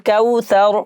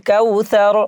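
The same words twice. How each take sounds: No difference in how they are said.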